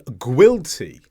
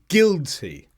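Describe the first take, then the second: First: A U sound is heard after the G. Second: No U sound is heard after the G. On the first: The speaker calls it wrong. "That's pronouncing the G and the U" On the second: The speaker calls it right. "But I should have said guilty"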